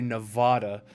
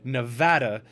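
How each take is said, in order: First: It is pronounced the way outsiders say it. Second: It is pronounced the way locals say it. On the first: The speaker is not from the state. The speaker calls it wrong. "when I hear somebody say Nevada, it just irks me" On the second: The speaker is from the state. The speaker calls it right. "It is Nevada because it is a Spanish word"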